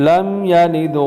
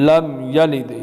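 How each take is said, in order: No difference in how they are said.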